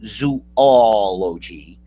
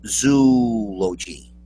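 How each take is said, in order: First: "zoology" as zoo-AW-lo-jee; four-beat "zoology", zoo-AW-lo-jee; common pronunciation. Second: "zoology" as ZOO-lo-jee, three beats; long ZOO, then lo-jee, in "zoology"; slow "zoology" with no AH, just ZOO-lo-jee; claimed correct pronunciation. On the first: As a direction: stretch the AW after zoo in "zoology". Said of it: "so many people pronounce it". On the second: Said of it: "when really it's just". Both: Shown as a demonstration.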